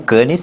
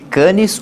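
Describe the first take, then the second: First: The name is pronounced the French way. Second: The name is pronounced the Portuguese way.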